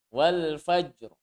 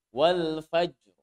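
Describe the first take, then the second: Both takes have the same delivery.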